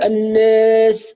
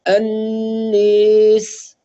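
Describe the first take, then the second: First: The long vowel is a plain open 'aa'. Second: The long vowel is inclined toward 'ee'. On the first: The speaker calls it wrong. "لا نقول الناس" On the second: The speaker calls it right. "بإمالتها الناس هكذا"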